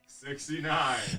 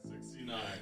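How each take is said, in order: First: It is said louder. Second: It is said at normal, quieter volume.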